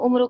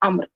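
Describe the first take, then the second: First: It starts with 'u' and ends in 'u'. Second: It starts with 'a' and ends in 'r'. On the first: The speaker calls it wrong. "ये उम्रू नहीं है। बाज़ लोग उम्रू उम्रू करते हैं।" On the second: The speaker calls it right. "तो इसको कैसे पढ़ना है? अम्र"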